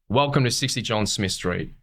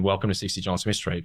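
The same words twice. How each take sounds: First: It is said in a livelier, more varied way. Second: It is said in a flat, plain way. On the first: The speaker calls it right. "a slight little change, which actually might make it a bit more interesting" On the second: The speaker calls it wrong. "it's one thing to be like, again"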